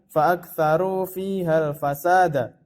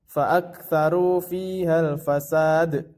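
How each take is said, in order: First: The last word ends with a short vowel. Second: The last word ends on a silent consonant. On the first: The speaker calls it wrong. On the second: The speaker calls it right. "Jadi cara membacanya adalah"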